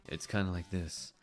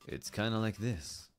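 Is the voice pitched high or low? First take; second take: low; low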